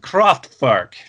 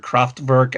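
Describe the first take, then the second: First: The name is pronounced with a German reading. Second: The name is pronounced with an American English reading. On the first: "you got to say it like Florian" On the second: "the way it would look to my American eyes"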